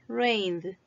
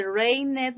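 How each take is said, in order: First: "rained" as "raynd", e silent; one syllable. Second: "rained" wrongly split in two, "rai-ned"; mistaken extra syllable. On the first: Teacher corrects the mistake for pupils, one syllable. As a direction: say "rained" in one beat with a voiced d. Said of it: "una sílaba". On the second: Teacher warns pupils how not to say it, extra syllable. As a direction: sound the e in "rained", like "ray-net". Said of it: "No se dice". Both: Shown as a demonstration.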